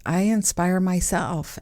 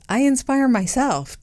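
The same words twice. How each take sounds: First: Said in the usual way. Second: Higher, playful self-praise; mock self-praise. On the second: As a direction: brag jokingly about yourself. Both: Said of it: "I'm very inspiring, right?".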